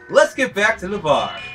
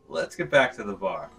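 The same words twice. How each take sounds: First: It is said with more emotion. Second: It is said flatly, with little emotion.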